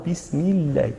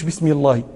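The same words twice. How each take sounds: First: الله with a thin, light lam. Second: الله with a thick, heavy lam; wrong heavy lam. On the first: Teacher showing the rule on بسم الله, light lam in الله. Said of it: "لام الله بسم الله رقق". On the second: Teacher showing what not to say, heavy lam in الله. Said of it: "دوش بسم الله". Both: Shown as a demonstration.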